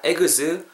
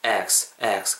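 First: "eggs" as three syllables, egeuzeu; higher, Korean-style "eggs" with vowels after g and z; over-pronounced. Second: "eggs" in one short syllable, lower; natural pronunciation. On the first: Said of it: "이렇게 하지 마시고". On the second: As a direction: say "eggs" lightly, no added vowels. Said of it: "그냥 자연스럽게 이렇게 발음하시면". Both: Shown as a demonstration.

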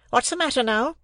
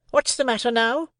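First: High-pitched, smartly snapped question; smart demand. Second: High-pitched, sharply put question; sharp demand. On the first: Sister questioning Joe at tea, smartly. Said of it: "she said smartly". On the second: Sister pressing Joe for an answer, sharply. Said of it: "repeated my sister more sharply than before". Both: A narrator's reading.

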